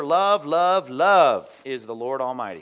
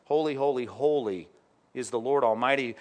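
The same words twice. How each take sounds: First: Love sung out loud and drawn, a mock wrong quote; deliberate misreading. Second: Holy stressed each time, falling on the last; correct reading. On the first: Preacher misquotes the seraphs to test the congregation, loud and slow. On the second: Preacher gives the real seraph cry after the wrong one, weighty. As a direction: read the true words with weight. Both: Shown as a demonstration. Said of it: "Is that what it says?".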